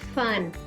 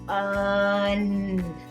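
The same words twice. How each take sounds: First: The word is said quickly. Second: The word is stretched out slowly.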